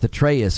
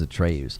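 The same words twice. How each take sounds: First: Atreus as uh-TRAY-us; unstressed "us" ending on Atreus; standard pronunciation. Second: Atreus as uh-TRAY-oos; full "oos" ending on Atreus; personal mispronunciation. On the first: Streamer naming a word they struggle with, Atreus as uh-TRAY-us. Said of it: "I still struggle with Atreus". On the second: Streamer admitting their old habit, Atreus as uh-TRAY-oos. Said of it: "I just always said it is Atreus". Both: Shown as a demonstration.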